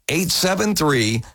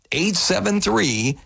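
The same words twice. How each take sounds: The two takes are said the same way.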